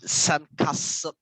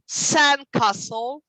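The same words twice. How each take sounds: First: The stress is on the second part, castle. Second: The stress is on the first part, sand. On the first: The speaker calls it wrong. "We don't say s- sandcastle" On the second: The speaker calls it right. "The stress is always on the first word"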